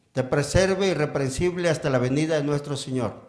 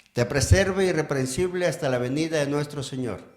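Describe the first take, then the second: No difference in how they are said.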